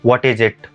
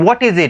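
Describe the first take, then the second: First: It is said in an acted character voice. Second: It is said in a plain narrating voice. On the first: The speaker calls it right. "वो बोलता है" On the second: The speaker calls it wrong. "मतलब ऐसे नहीं बोलता"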